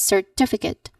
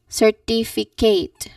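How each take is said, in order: First: The last syllable is a short 'kit'. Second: The last syllable sounds like 'kate'. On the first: The speaker calls it right. "You should say it as certificate" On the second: The speaker calls it wrong. "certificate, Kate"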